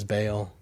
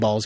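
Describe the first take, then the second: First: Baal said like "bale"; Baal with a long A, one syllable. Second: Baal's said like "balls"; Baal's with an open "aw" vowel. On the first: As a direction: say Baal to rhyme with "pale". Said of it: "I've always pronounced it as". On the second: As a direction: say Baal's to rhyme with "calls". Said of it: "I think Baal's good too". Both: Shown as a demonstration.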